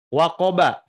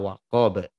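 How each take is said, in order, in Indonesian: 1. Kata ini berakhir dengan vokal 'a'. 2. Kata ini berakhir pada konsonan 'b'. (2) "dibacanya disukunkan"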